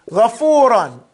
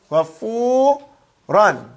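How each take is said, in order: First: Said in the usual way. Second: GHAFURAN very slow, long held "fuu", then "ran" apart; slow breakdown. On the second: Shown as a demonstration. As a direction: stretch and split GHAFURAN for learners. Repeats word broken down slowly.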